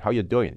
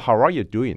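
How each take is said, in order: First: The word are is dropped entirely. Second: The word are is pronounced in full.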